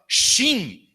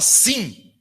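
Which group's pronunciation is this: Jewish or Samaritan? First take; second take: Jewish; Samaritan. First: It is pronounced the Jewish way. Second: It is pronounced the Samaritan way. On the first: "O judeu falava shin" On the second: The speaker is Samaritan. "o samaritano falava sim"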